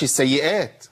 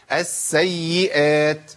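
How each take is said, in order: First: السيئات said quickly with light s and y; doublings not held. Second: السيئات slow, doubled s and y fully drawn out; both doublings held. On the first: Teacher showing what not to say, السيئات with lightened doublings. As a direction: skim over both doubled letters in السيئات. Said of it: "ما أقولش السيئات". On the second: Teacher insisting on correct form, slow السيئات with held doublings. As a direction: give السيئات all four letters, lingering. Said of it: "لازم أقول السيئات". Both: Shown as a demonstration.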